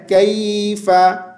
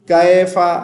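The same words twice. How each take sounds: First: कैफा chanted slowly as "kay-fa"; correct diphthong. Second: कैफा with flattened "kae-fa" vowel; wrong open vowel. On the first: Teacher gives the correct reading, कैफा as slow "kayy-fa". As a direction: draw out the y glide in कैफा, "kayy-fa". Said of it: "तो सही क्या है?". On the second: Teacher shows the mistake, कैफा as "kae-fa". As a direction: say कैफा as "kae-fa", without the y glide. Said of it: "कैफा नहीं पढ़ना". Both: Shown as a demonstration.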